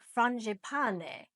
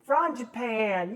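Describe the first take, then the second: First: It is said with an Italian-sounding pronunciation. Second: It is said in a Texan accent. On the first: "which sounds Italian" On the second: "somebody in Texas. I bet it's frangipane"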